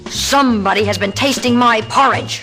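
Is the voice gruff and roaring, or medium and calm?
gruff. A gruff, roaring, angry voice. The speaker is furious. "roared in a voice so gruff"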